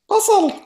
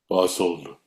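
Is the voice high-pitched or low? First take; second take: high-pitched; low. First: It is said in a high-pitched voice. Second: It is said in a very low voice.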